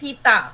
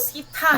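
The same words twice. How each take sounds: First: The t sound is plain, without breath. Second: The t sound carries a light puff of breath. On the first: "नहीं कहेंगे सीता" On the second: "ता में एक हा धीरा सा छुपा होता है"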